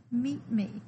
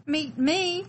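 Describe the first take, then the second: First: Said in the usual way. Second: Higher, louder disbelieving question; startled echo. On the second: Acted. Hidden little one hearing someone wants to meet them, startled. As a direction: repeat it as if you can't believe it.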